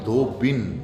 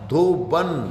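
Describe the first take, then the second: First: The second vowel is an 'i' sound. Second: The second vowel is an 'a' sound. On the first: The speaker calls it right. "धोबी से धोबिन बनी है" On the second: The speaker calls it wrong. "धोबन नहीं"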